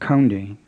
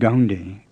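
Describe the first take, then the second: First: It starts with a breathy, aspirated K sound. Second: It starts with a voiced English G sound. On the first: "with an aspirated K like English" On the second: "with an English G"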